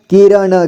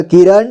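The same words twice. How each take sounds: First: किरण as कि-र-ण; syllable by syllable. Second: Said in the usual way. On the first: Shown as a demonstration. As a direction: sound out किरण ending "na". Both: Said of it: "एक ही बार में पढ़ेंगे".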